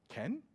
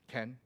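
First: It is said as a question, rising. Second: It is said as a statement, falling.

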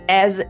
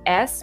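First: The word ends with a buzzing z sound. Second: The word ends with a hissing s sound. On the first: The speaker calls it right. "As with a Z sound" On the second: The speaker calls it wrong. "We don't say s because that's but"

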